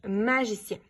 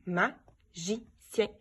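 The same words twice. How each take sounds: First: Said in the usual way. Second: Stretched slowly syllable by syllable; drawn out so each syllable is heard; slow syllable-timed. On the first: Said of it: "c'est de dire le ma". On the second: Shown as a demonstration. Teacher slowly stretching a word for pupils to count syllables. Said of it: "Est-ce que je l'entends au début?".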